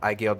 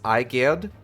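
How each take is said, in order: First: The name is said quickly with an L sound. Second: The name is said carefully with no L sound. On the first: "when you say it kind of like quick, quickly ... it kind of sounds like there's an L in there" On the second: "the proper pronunciation um, is Eiged"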